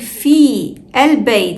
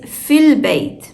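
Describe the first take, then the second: First: The two words are said apart with a break. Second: The two words run together without a break. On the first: The speaker calls it wrong. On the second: The speaker calls it right.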